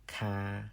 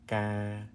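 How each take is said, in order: First: The first consonant has a puff of air. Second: The first consonant has no puff of air. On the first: The speaker calls it wrong. "It's not kai, ka, cow" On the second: The speaker calls it right. "It's an unaspirated C"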